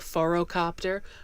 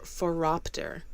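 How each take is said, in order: First: The word has an extra 'co' syllable. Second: The word has no extra 'co' syllable. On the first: The speaker calls it wrong. "I keep want to pronounce this word as a phorocopter" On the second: The speaker calls it right. "but it's um, for phoropter"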